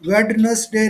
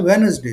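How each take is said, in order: First: वेडनेसडे said with the D sounded, wed-nes-day; wrong pronunciation. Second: वेडनेसडे said as wenz-day, silent D; correct pronunciation. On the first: Teacher shows students the wrong way, वेडनेसडे with D. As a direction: sound out every letter in वेडनेसडे, D included. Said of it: "वेडनेसडे नहीं बोलना है". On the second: Teacher shows students the right way, वेडनेसडे with silent D. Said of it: "इसको बोलना है वेडनेसडे". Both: Shown as a demonstration.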